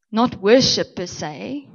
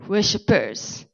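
First: "worship" set apart, slow and raised; stress on worship. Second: "worshippers" drawn out slowly, falling at the end; stressed worshippers. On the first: Preacher contrasting two words for the congregation, stressed "worship". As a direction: draw out "worship" as the word being ruled out. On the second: Preacher naming what the Father seeks, slow emphatic "worshippers". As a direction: stretch "worshippers" out as the corrected word. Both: Shown as a demonstration. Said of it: "difference there".

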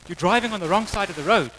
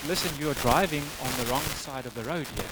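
First: Slightly raised, urgent telling-off; acted cop's warning. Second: Softer, measured, word-by-word cop; acted patient repetition. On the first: Cop telling the driver he's on the wrong side, higher firm warning. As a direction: inform the driver firmly, pitched up. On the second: Cop repeating himself to the disbelieving driver, soft and deliberate. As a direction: spell it out quietly for someone not getting it.

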